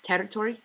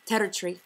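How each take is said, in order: First: Said in the usual way. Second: Territory said as terri-tree, ending in one syllable; Scottish short territory; contracted ending. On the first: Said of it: "For example". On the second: Shown as a demonstration. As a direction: clip the ending to one syllable, Scots style. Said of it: "contract them from two syllables".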